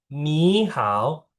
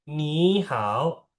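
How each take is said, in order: No difference in how they are said.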